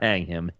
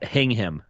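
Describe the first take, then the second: First: The first syllable sounds like 'hang'. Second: The first syllable sounds like 'hing'. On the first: The speaker calls it wrong. "not hang him" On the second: The speaker calls it right. "Hing him, not hang him"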